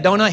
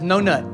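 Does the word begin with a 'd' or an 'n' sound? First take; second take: d; n. First: The word begins with a clear d sound. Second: The word begins with an n sound instead. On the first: "But he don't say a donut" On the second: "He says"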